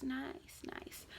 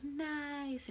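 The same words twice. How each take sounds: First: Breathy whispered Nice, nice, soft and tender; whispered baby nice. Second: High, soft baby-talk imitation of the word Nice; imitating baby's nice. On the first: Retold or imitated. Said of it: "He goes". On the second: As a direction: coo Nice like a toddler petting a face, pitched up and gentle. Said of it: "his favorite thing to do is he goes".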